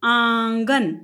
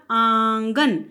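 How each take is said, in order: First: आंगन with nasal आ, plain गन; nasal vowel demo. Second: आंगन slowly, nasal आ, गन from the mouth; slow nasal demo. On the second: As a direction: draw out आंगन, nasal only on आ. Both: Shown as a demonstration. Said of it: "आ बोलते हुए मैंने नाक और मुख से".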